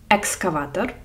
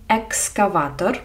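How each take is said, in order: Both takes have the same delivery.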